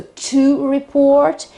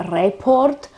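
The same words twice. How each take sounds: First: Verb "report" stressed on PORT; slow, higher "report", weight on the O; stress on second syllable. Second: "report" said the Italian way, stressed on RE; Italian mispronunciation. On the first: Teacher shows the verb keeps stress on PORT. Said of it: "accent is always on the second syllable". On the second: Teacher shows Italians' common mistake, stress on RE. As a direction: move the stress of "report" to the first syllable. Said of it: "shift the accent to the first syllable". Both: Shown as a demonstration.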